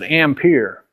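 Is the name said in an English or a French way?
English. The name is said with an English pronunciation. This is the usual local way of saying it. The speaker calls it wrong. "we all pronounce it Ampere"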